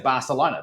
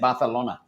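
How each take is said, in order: First: The name is said with an English pronunciation. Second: The name is said with a Spanish pronunciation. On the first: This is how foreigners say it. "if you are a, a Westerner, you say Barcelona" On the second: This is how locals say it. "but they say Barcelona"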